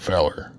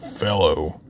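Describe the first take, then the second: First: The word ends in an 'er' sound. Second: The word ends in an 'oh' sound. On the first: "I might call him a feller because it's my accent" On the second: "instead of saying fellow"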